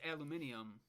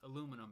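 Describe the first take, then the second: First: Five syllables, with an extra 'ee' sound before the end. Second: Four syllables, ending in a plain '-num' sound. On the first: This is how it is said over here. "so it's aluminium" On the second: This is how it is said back home. "but it's aluminum back at home"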